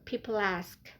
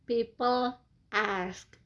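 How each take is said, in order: First: The two words are linked together smoothly. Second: The two words are said separately.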